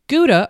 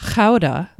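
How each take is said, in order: First: The word has an English pronunciation. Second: The word has a Dutch pronunciation.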